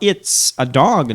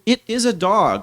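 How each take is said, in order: First: The words it and is are joined together. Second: The words it and is are said separately.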